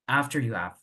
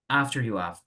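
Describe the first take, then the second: First: Spoken fast, the h in 'have' is dropped. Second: Spoken fast, the h in 'have' is dropped.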